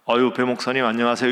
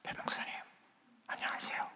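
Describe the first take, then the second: First: It is said in a normal, full voice. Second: It is said in a faint, hoarse voice.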